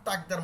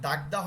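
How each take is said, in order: First: It begins with a crisp, unvoiced t sound. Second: It begins with a soft, voiced d sound. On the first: The speaker calls it right. "তাকদার মতো তয়ের মতো উচ্চারণ হয়" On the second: The speaker calls it wrong. "আসলে দাগদা হয় না"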